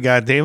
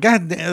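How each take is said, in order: First: It sounds angry. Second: It sounds surprised.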